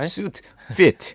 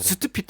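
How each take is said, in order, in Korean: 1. 마지막 음절은 f 소리로 시작합니다. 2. 마지막 음절은 p 소리로 시작합니다. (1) "F 발음" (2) "수트핏 하면은 다른 게 들릴 수 있잖아요"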